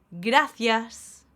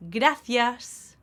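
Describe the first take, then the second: No difference in how they are said.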